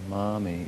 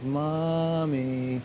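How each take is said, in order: First: It is said in a normal, calm voice. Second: It is said in a whining voice.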